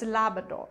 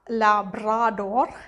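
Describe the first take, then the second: First: It is said with the natural spoken pronunciation. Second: It is said as a spelling-based reading. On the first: This is how it is actually pronounced. The speaker calls it right. "it's Labrador" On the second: This is how people misread it. The speaker calls it wrong. "It's not um, Labrador"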